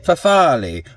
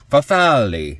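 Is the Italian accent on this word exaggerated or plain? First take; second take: plain; exaggerated. First: It is said with a plain, unexaggerated accent. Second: It is said with an exaggerated Italian accent.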